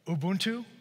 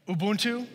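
First: It is said plainly, without extra feeling. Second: It is said with strong feeling and energy.

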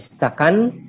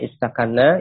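First: The word ends on a single, light n sound. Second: The word ends with a doubled n and a vowel. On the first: The form is shortened to fit the poem's meter. "ini nunnya itu ditakhfif, dibaca istakan" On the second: This is the original full form. "aslinya istakanna"

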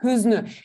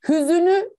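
First: The word has two syllables, dropping the middle vowel. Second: The word has three syllables, keeping the middle vowel. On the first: The speaker calls it right. "ne diyorum? Hüznü" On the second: The speaker calls it wrong. "Hüzünü demiyorum"

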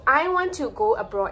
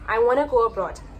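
First: Want to is pronounced as two full words. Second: Want to is reduced and blended into wanna.

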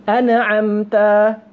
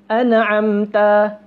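No difference in how they are said.

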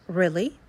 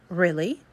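First: The first vowel is a short E sound. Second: The same.

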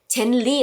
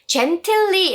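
First: The t sound is dropped. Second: The t sound is clearly pronounced. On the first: The speaker calls it right. "이 트 발음이 안 납니다" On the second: The speaker calls it wrong. "gently 라고 하지 마시고요"

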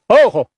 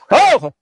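First: The call is at its quietest, least projected. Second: The call is at its loudest, most projected. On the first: The animals are nearby. "我们说近一点地方" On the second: The animals are farthest away. "再远地方"

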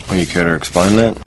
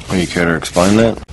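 The two takes are said the same way.

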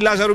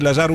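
First: The stress falls on the first syllable. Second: The stress falls on the second syllable. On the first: The speaker calls it wrong. "αλλά δεν διαβάζετε έτσι" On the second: The speaker calls it right. "[name] με λέμε"

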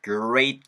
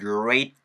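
The two takes are said the same way.

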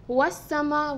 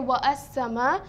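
First: Wa runs straight into sama without a stop. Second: A glottal stop separates wa from as-sama. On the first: The speaker calls it right. "we say was-sama" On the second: The speaker calls it wrong. "we don't say wa as-sama"

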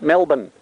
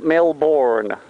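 First: The second syllable is reduced, with no R. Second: The second syllable is fully pronounced. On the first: The speaker calls it right. "if you wanted to spell it phonetically, it would be M-E-L-B-N" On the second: The speaker calls it wrong. "Not Melbourne. Get Melbourne out of your mind"

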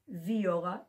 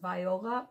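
First: The first syllable sounds like 'vee'. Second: The first syllable sounds like 'vie'. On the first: This is how people actually say it. The speaker calls it right. "but they do pronounce it viola" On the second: This is how the spelling suggests it sounds. The speaker calls it wrong. "it looks like it should be pronounced viola"

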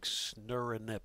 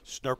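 First: The word is spelled out in several syllables. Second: The word is said as one short syllable. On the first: The speaker calls it wrong. "If you really read it, it's like snurinip or something like that" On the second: The speaker calls it right. "SNRP sounds a lot better"

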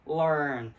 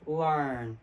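First: The R is pronounced with a retracted tongue. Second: The R is pronounced with a retracted tongue.

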